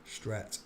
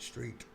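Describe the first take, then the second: First: "Stret" said with a short e, as the misreading; wrong pronunciation. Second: "Street" with a long ee, set right; correct pronunciation. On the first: Misreading the word aloud, a short "Stret". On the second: Correcting his own misreading, a long "Street". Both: Shown as a demonstration. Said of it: "No, not Stret".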